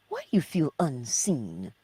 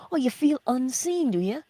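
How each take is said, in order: First: Said in the usual way. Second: High, louder teasing "Oh"; mock sympathy. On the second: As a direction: tease the excuse, raising the "Oh" high. Mock challenge of listener's excuse.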